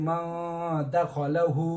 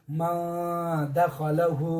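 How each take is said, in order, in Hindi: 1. n छिपा हुआ है और नाक से होकर निकाला जाता है। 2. n छिपा हुआ है और नाक से होकर निकाला जाता है।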